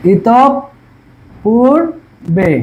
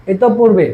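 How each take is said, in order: First: ইত পূর্বে in three pieces, "itop... pur... be"; pauses between syllables. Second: ইত পূর্বে joined as "itop-purbe"; doubled consonant. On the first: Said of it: "এই যে ইতপের পরে আমরা কি থামছি". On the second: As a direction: run ইত পূর্বে together with a held double p. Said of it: "আমাদের দ্বিতীয় উচ্চারণ হবে". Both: Shown as a demonstration.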